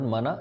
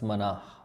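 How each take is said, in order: First: The word ends on a plain vowel. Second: The word ends with a breathy h sound. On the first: The speaker calls it wrong. "it's not Mana" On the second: The speaker calls it right. "it's Manah"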